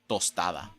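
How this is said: It is said with a native Spanish accent. The speaker calls it right. "That's how you say it in good Spanish"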